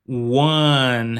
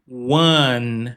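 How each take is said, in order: The two takes are said the same way.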